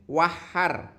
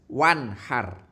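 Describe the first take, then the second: First: The n sound is not pronounced clearly. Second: The n sound is pronounced clearly. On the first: The speaker calls it wrong. "Tidak boleh" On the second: The speaker calls it right. "nun yang mati itu harus jelas"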